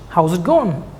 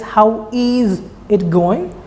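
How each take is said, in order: First: It is said fast, contracted, with going reduced. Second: Each word is said fully and separately. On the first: "with a rapid speech" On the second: "That is"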